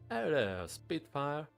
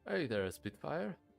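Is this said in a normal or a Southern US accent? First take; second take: Southern; normal. First: It is said in a Southern US accent. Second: It is said in the speaker's normal accent.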